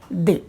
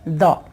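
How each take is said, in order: First: The word ends in a long 'ee' vowel. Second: The word ends in a short, weak vowel. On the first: The next word begins with a vowel sound. "वावेल sound से जब इसकी pronunciation की शुरुआत होती है... definite article का उच्चारण हो जाता है दी" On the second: The next word begins with a consonant sound. "जब उसके प्रोनाउंसिएशन की शुरुआत कॉन्सोनेंट साउंड से होती है तो यहां पर टीएच का उच्चारण निकलता है द"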